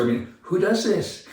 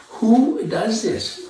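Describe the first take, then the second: First: Said in the usual way. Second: Who does this said very slowly, WHO rising high; exasperated slow-motion repeat of Who does this; slow emphatic repeat. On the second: Real, not acted. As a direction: drag out each word in disbelief. Indignant rhetorical question repeated.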